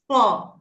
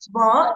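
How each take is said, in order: First: It begins with a voiceless F sound. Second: It begins with a voiced V sound. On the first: The speaker calls it right. "it's Va" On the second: The speaker calls it wrong. "So V is not Va"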